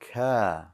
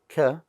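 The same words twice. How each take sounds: First: The vowel is held long. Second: The vowel is short and clipped. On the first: The speaker calls it right. "you have to make it a little longer because there's an elif" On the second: The speaker calls it wrong. "Don't just say ka"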